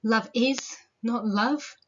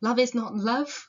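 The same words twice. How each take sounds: First: Slow "Love IS", pause, then "not love"; emphasis on IS. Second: "Love is not love" run together as one phrase; quicker reading, no break after "is"; shifted emphasis. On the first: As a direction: lean on IS and split the line after it. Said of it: "how do you read it?". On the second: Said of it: "Where do you put that emphasis?". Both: Shown as a demonstration.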